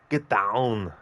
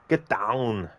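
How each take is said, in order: No difference in how they are said.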